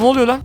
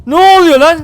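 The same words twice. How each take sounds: First: Said in the usual way. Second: Higher, louder startled yell; real shock as the fight breaks out; excited shout. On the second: Real, not acted. Caught off guard by the attack, shouting. Sudden battle erupts.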